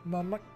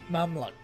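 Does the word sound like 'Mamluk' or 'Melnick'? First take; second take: Melnick; Mamluk. First: The word is said as 'Melnick'. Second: The word is said as 'Mamluk'. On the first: The speaker calls it wrong. "Melnick is definitely wrong" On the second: The speaker calls it right. "That would be closer"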